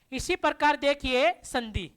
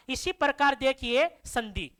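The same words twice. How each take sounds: The two takes are said the same way.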